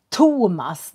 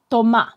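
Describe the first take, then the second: First: The first t has a strong puff of air. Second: The first t has no puff of air. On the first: This is how it is said in Sweden. "I Sverige så säger vi Thomas. Det blir som t, t. Vi pustar i P T T G K" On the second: This is how it is said in France. "I Frankrike så säger de Thomas"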